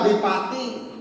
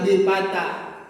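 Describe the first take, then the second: First: The word ends with an 'i' vowel. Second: The word ends with an 'a' vowel. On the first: The speaker calls it wrong. "kenapa nggak bipati" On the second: The speaker calls it right. "tapi bipata"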